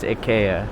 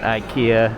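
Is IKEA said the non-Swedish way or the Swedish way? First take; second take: Swedish; non-Swedish. First: It is said the Swedish way. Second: It is said in a non-Swedish way. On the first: The speaker calls it right. "It's IKEA" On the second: The speaker calls it wrong. "not IKEA"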